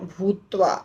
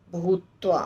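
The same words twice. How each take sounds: The two takes are said the same way.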